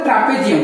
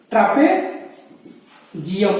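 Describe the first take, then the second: First: Said in the usual way. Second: trapezium very slow, long pause before its last part; syllable-by-syllable naming. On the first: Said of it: "इसको बोलते हैं". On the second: Shown as a demonstration. Teacher spells out a new term for students, trapezium slowly split with a pause. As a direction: sound out trapezium in two drawn-out pieces. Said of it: "इसको बोलते हैं trapezium".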